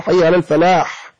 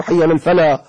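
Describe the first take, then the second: First: الفلاح closed with a strong breathy ح; sounded final ha. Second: الفلاح cut to an open "falaa"; dropped final ha. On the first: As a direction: release a long h sound ending الفلاح. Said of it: "ومن ترك الحاء في حي على الفلاح". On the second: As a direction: say الفلاح without its closing ح. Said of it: "ومن ترك الحاء". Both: Shown as a demonstration.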